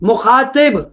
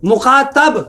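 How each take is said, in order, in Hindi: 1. आख़िरी स्वर 'i' की आवाज़ है। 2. आख़िरी स्वर 'a' की आवाज़ है। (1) "जेर लगाया, गुफ्तगू करने वाला" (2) "जबर लगाया, सुनने वाला"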